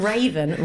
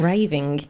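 First: "raven" said as the bird's name, RAY-ven; "raven" with a clear final -en, the mistaken take; wrong word raven. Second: "raving" with a nasal -ing ending, RAY-ving; "raving" stressed on the first syllable, clearly ending in -ing; right word raving. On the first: Correcting friends who misheard, saying "raven" as the wrong version. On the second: Correcting friends who misheard, stressing the right word "raving". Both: Shown as a demonstration.

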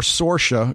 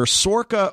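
First: "Sorsha" with a soft sh in the middle; soft-sh pronunciation. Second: "Sorka" with a hard k in the middle; hard-k pronunciation. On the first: Co-host offers the other heard version of an actress's name, soft sh. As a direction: say "Sorsha" with a sh sound. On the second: Co-host offers one heard version of an actress's name, hard k. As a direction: say "Sorka" with a k sound. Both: Shown as a demonstration. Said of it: "say it two different ways".

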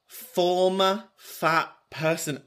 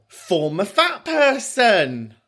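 First: Softer, high, word by word; slow, deliberate repeat. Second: High, slow, drawn-out discovery; dawning realisation. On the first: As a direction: spell it out slowly and softly. Repeats the discovery to herself. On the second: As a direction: stretch it out high as the penny drops. Discovers what FFP stands for. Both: Real, not acted.

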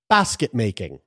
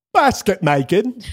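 First: Said in the usual way. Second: Posh English accent, high and slow on Basket making; hammed-up English accent. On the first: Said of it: "say this with my best English accent". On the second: Shown as a demonstration. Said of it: "my best English accent".

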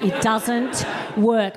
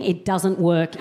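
First: Slow emphatic. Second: Said in the usual way. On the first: Real, not acted.

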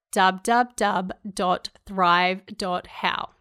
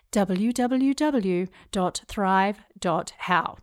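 First: "dub dub dub" for WWW, said slowly; Kiwi way. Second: Slow, spelled-out "W W W", each letter said; uncomfortable American way. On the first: Podcaster giving her web address to listeners, slow Kiwi "dub dub dub". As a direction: sign off the podcast the New Zealand way, "dub dub dub dot thrive dot how" slowly. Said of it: "Everybody in New Zealand would say dub dub dub".

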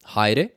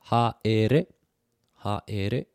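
First: Said in the usual way. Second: "Haere" slowed and divided, ha - e - re; split into syllables. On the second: Shown as a demonstration. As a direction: sound out each syllable of "Haere" for learners. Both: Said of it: "more than two syllables".

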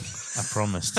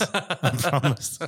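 First: Said in the usual way. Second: Laughing through the words; breaking into laughter on "I promised". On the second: Real, not acted.

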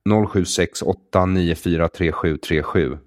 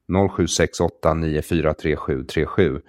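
The two takes are said the same way.

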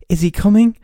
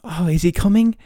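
First: Much higher and louder, building excitement; hammed-up kid in a Christmas ad; mock TV ad kid. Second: Put-on higher, eager kid voice from a Christmas ad; imitating a kid asking about Santa, a bit higher; mock TV ad kid. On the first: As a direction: push the excited ad child further. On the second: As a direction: play the excited child in the ad. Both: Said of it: "Everything you see on T V is like".

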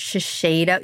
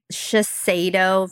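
First: Shiseido said shuh-SHAY-doh; Shiseido, SH at both first syllables. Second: Shiseido said shuh-SAY-doh; Shiseido, plain S before the stressed vowel. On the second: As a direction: say Shiseido with "say" in the middle. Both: Shown as a demonstration. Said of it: "a tongue twister".

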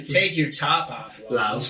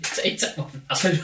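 First: Slow American "Take your top off, love"; American accent. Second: Cockney "Take your top off, love", unvoiced, laughing; cheeky Cockney builder line. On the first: Showing Cockney fails in an American accent. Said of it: "things in an American accent". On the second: Mocking a Cockney builder, laughing Cockney. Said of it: "You can't say Cockney". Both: Shown as a demonstration.

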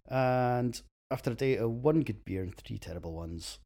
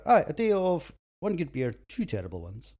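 First: Said in the usual way. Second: Louder restart, "two" given weight as the fixed count; corrected line. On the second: Real, not acted. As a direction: say it again, putting the right number in. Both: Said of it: "No, that's wrong".

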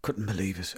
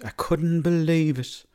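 First: Said in the usual way. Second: High, loud, drawn-out "couldn't believe"; emphatic disbelief. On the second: Real, not acted. Man laments the rooster taken by the fox, emphatic disbelief on "couldn't believe".

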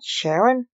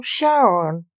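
First: "Sharon" with an EH vowel, SHERR-un; "Sharon" with weak second syllable, rising; name mispronounced. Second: "Charon" with two open AH vowels, SHAH-ron; "Charon" drawn out as SHAH-ron; name correctly pronounced. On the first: The wrong name being rejected. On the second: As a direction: say "Charon" as SHAH-RON, both syllables full. Corrects name against Sharon. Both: A narrator's reading.

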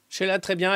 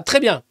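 First: Said in the usual way. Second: Louder, upbeat reassurance; cheery. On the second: Shown as a demonstration. Answering about the singer's health, upbeat and louder. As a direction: brightly insist "très bien" with a lift.

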